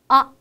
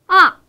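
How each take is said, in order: First: The syllable is light and short, without contour. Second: The pitch falls fast and loud from high. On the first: "좀 가볍고 짧게 발음하는 성조" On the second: "가장 높은 음에서 가장 낮은 음으로 강하고 빠르게 떨어뜨리면서"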